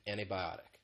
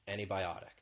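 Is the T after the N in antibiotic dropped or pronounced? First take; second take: dropped; dropped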